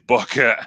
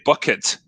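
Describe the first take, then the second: First: The t in the middle is dropped. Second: The t in the middle is clearly pronounced. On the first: "we've forgotten how to use t's" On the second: "we wouldn't say bucket"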